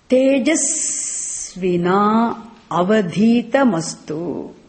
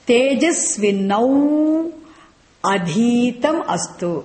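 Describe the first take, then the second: First: The words run together with sounds linked across them. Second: The words are said separately without linking sounds. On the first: "Can say two ways of saying it" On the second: "We split it first"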